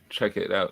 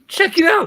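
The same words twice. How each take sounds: First: It is said in his normal voice. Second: It is said in a Shaggy impression.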